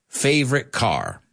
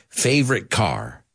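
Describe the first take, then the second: Both takes have the same delivery.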